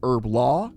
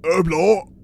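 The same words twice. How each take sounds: First: It is said in a non-British accent. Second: It is said in a British accent. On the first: "in my accent" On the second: "get really into British"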